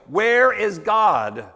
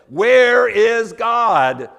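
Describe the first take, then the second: First: It is asked in a sterner, firmer voice. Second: It is asked in a loud, raised voice.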